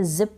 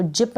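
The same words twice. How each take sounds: First: जिप said "zip", with a buzzing z; correct z sound. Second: जिप with a hard English j, not z; wrong j sound. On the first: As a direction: start जिप on z, not j. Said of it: "जिप पढ़ेंगे". (जिप को ज़ की ध्वनि से) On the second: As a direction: start जिप with "j" as in jam. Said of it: "इसको जिप नहीं पढ़ेंगे". (जिप ज की ध्वनि से, बिना नुक़्ते) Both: Shown as a demonstration.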